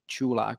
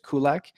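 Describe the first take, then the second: First: The name begins with a ch sound. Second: The name begins with a hard k sound. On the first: This is how it is said in Czech. "In Czech, it's actually Chulak, so it's like choo choo" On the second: This is how English speakers usually say it. "the usual pronunciation that uh the you know um, in English natives uh, always say"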